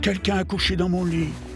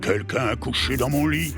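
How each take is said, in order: First: A medium voice, like Mama Bear. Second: A deep, growling voice, like Papa Bear.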